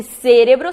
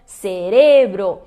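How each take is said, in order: First: "cérebro" as SE-re-bro, loud on SE; proparoxytone stress. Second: "cerebro" as se-RE-bro, slow and loud; stress on middle syllable. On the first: Teacher shows the hypothetical form, "cérebro" stressed loudly on SE. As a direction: punch SE at the start of "cérebro". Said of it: "seria uma proparoxítona". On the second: Teacher sums up the rule, slow "cerebro" stressed on RE. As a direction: draw out the RE in "cerebro". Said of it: "muda também a sílaba tônica". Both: Shown as a demonstration.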